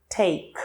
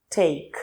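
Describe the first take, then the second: The two takes are said the same way.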